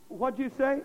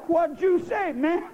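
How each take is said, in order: First: Said in the usual way. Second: Loose, casual slang drawl. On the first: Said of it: "we try that and we say". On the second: Retold or imitated. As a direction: say it loose and laid back. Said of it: "They say".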